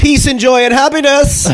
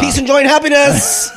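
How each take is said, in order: First: High, slow, sing-song through a laugh; sing-song joke. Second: High, bright greeting card cheer; sing-song joke. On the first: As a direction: chirp it like a greeting card. Jokey wish list answer. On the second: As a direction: burst in with a cheesy holiday wish. Same joke repeated louder. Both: Pretend.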